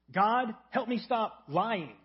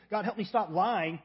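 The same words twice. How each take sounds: First: Slow, drawn-out mock prayer, a touch louder; shallow prayer. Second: Said in the usual way. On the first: Pastor voicing a shallow prayer, slow and drawn-out. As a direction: drag out a surface-level plea to God.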